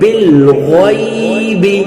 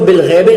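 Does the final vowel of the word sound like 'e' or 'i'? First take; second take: i; e. First: The word ends with an 'i' vowel. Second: The word ends with an 'e' vowel. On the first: The speaker calls it right. "इसको हम पढ़ेंगे बिल गैबी" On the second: The speaker calls it wrong. "इसको बिल गैबे नहीं पढ़ेंगे"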